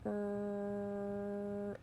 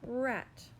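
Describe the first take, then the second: First: The word is said slowly in two separate parts. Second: The word is said quickly as one smooth unit. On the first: "We're going to say parts slowly" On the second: "Say it fast"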